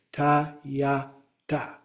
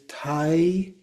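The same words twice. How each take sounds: First: "tayata" slowly as ta, ya, ta; separated syllables. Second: "tayata" with first syllable as TAI; slow tai, ya, ta for "tayata"; variant pronunciation. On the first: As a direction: open AH in every syllable of "tayata". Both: Shown as a demonstration. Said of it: "it's sometimes pronounced as tayata".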